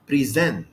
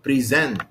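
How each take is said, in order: First: The stress is on the second syllable. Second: The stress is on the second syllable.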